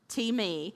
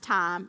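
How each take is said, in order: First: It is said as two syllables, tee-may. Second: It is said as one syllable, like English time. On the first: The speaker calls it right. "It's T-me" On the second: The speaker calls it wrong. "It's not pronounced time"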